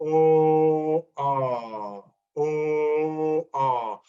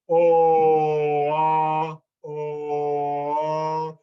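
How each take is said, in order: First: A quick throat catch separates each vowel. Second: The vowels blend smoothly into each other. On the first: The speaker calls it right. "you want to have a" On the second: The speaker calls it wrong. "where I'm just changing my mouth shape and the vowel kind of blends"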